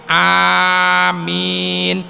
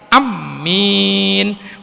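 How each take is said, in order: First: The first vowel is long, the m single. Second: The first vowel is short, the m doubled. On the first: "Dipanjangkan hamzahnya, amimnya ditahfif" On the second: "dipendekin, mimnya ditasdid"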